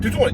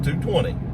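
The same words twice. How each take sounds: First: It is said quickly, run together. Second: It is said at an ordinary, unhurried pace.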